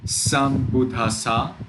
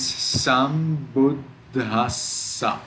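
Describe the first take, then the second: First: Sambuddhassa without the stops on d and s, ending on a rise; single consonants. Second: Sambuddhassa slow, dd stopped and ss drawn out; stuck at D and S. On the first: Teacher showing the wrong reading, sambuddhassa with no held doubles. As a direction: say sambuddhassa with short d and short s. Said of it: "It is not". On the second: Teacher showing the right reading, sambuddhassa with d and s held. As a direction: get stuck at both doubles of sambuddhassa. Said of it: "It is sambuddhassa". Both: Shown as a demonstration.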